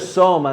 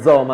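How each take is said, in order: First: The word starts with a hissing S sound. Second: The word starts with a buzzing Z sound. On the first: The speaker calls it right. "Si dice soma" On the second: The speaker calls it wrong. "non zoma, noi mettiamo la Z"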